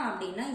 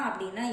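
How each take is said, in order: Both takes have the same delivery.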